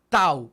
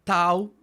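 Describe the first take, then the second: First: "Tau" with tongue behind the teeth; dental tau demo. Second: "Tau" much louder, crisp tongue-tip t; loud dental tau demo. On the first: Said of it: "miren cómo se co-, coloca la lengua detrás". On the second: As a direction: spit out the t of "Tau". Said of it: "coloca la lengua detrás de los dientes". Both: Shown as a demonstration.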